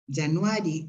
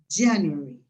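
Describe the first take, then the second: First: The stress is on a middle syllable. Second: The stress is on the first syllable. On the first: The speaker calls it wrong. "los acentos están mal puestos" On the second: The speaker calls it right. "se acentúan en la primera sílaba"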